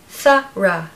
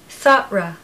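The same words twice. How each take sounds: The two takes are said the same way.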